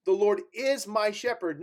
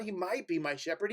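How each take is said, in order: First: IS leaned on, falling firm; "The Lord is my shepherd" with IS stressed and certain. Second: "might" lifted, softer and rising like a doubt; "He might be my shepherd" with MIGHT stressed and unsure; doubtful might, fading soft. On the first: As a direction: land hard on is. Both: Shown as a demonstration.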